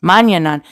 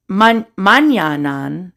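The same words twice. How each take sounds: First: Manyanan said at normal speed as mahn-yuh-nahn; confident retry. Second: Manyanan sounded out slowly and haltingly, stumbling on the first syllable; halting first try. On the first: Retrying the ridge name for viewers, now confident. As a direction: say Manyanan straight through once you've got it. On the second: Reading an unfamiliar ridge name aloud, halting first attempt. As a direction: feel your way through Manyanan, unsure of it. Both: Shown as a demonstration. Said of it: "I'm gonna butcher this one".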